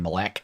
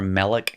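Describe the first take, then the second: First: The stress is on the last syllable. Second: The stress is on the first syllable. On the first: It would be a different word. The speaker calls it wrong. "which would be a different word if it existed" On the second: It means king. The speaker calls it right. "the accent stayed on the front end"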